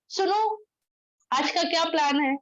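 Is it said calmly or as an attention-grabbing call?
attention-grabbing. It is called out to grab attention.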